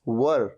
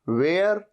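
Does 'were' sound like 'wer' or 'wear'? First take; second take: wer; wear. First: It is said as a short 'wer'. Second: It is said as a two-part 'wear'. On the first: The speaker calls it right. "व र" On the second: The speaker calls it wrong. "वेयर ऐसे नहीं"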